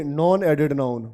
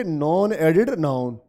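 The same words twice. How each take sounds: First: Slow answer. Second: Each word drawn out slowly for the class; slow drilled answer. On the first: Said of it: "तो आप इसको क्या बोलोगे?". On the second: Teacher to students, modelling the answer slowly. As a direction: spell it out slowly so the class can repeat. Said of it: "क्या बोलोगे?". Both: Shown as a demonstration.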